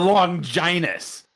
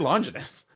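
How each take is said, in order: First: The name is pronounced in an exaggerated, drawn-out way. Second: The name is pronounced simply, without exaggeration. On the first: This is how one adaptation says it. The speaker calls it wrong. "They overpronounce it in the Netflix series" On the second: This is the familiar everyday way of saying it. The speaker calls it right. "just say Longinus. It's easier to say"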